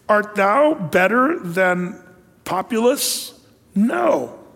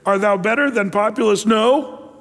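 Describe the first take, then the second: First: "No" is a separate answer after a pause. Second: "No" runs on as part of the question.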